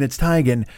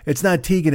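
First: "Teigen" with TIE, like "tie-gun"; Teigen said right. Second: "Tegan" with TEE, like "tee-gun"; Tegan said wrong. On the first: Mocking Chrissy giving the right name, "Teigen" as TIE-gun. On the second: Mocking Chrissy rejecting the wrong name, "Tegan" as TEE-gun. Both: Retold or imitated. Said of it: "she had to go with her last name".

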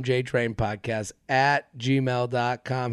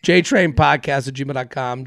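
First: Slow, low and soft; slow repeat. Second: Said in the usual way. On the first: Real, not acted. Host giving listeners the podcast email address, slowly and softly. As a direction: spell it out unhurriedly, dropping the volume.

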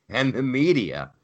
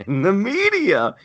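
First: Said in the usual way. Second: High, loud, strained repeat; exasperated emphasis. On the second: Real, not acted. Host ranting about coverage, exasperated emphasis.

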